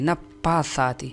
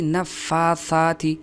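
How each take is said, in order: First: The double consonant is a p sound. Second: The double consonant is an f sound. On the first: The speaker calls it wrong. "बाज़ लोग इस फ़ा को पा पढ़ते हैं" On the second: The speaker calls it right. "हालांकि नफ़्फ़ासात"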